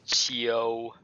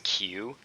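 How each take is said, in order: First: The name is said the Chinese way. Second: The name is said the English way. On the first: The speaker calls it right. "but it's Qiu" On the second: The speaker calls it wrong. "in English you would sort of pronounce that as Q"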